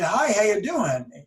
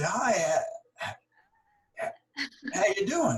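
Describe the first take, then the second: First: It is said smoothly without hesitation. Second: It is said with stuttering hesitations.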